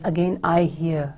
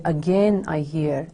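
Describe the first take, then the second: First: "Again I hear" with the weight on I; stress on I. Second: "again" drawn out and stressed; slow down and lean on "again". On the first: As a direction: make I the prominent word. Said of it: "he is using the personal pronoun". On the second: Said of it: "also emphasizes". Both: Shown as a demonstration.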